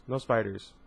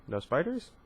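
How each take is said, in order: First: "No spiders" as a falling, final statement. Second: "No spiders" with "spiders" rising high into a question; rising echo question. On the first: She rejects the spider guess, falling tune on "No spiders". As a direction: let "spiders" drop, settling the matter. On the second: Guesser checks the answer, questioning rise on "No spiders". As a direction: echo it back, lifting "spiders" at the end. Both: A narrator's reading.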